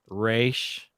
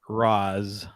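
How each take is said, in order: First: It has an 'ay' vowel and ends in sh. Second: It ends in a z sound. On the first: "it has been pronounced Raish" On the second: "I tend to say Raz Al Ghul"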